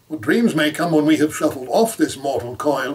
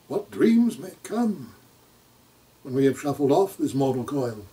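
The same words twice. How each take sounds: First: The line flows on as one continuous phrase. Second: The line is broken up, like a separate question. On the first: It is a statement about the dreams that come. The speaker calls it right. "it's all one phrase" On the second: It sounds like a question is being asked. The speaker calls it wrong. "you'll get someone who'll say"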